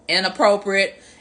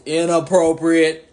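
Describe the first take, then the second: First: It is said in her normal voice. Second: It is said in a deeper, heavier voice.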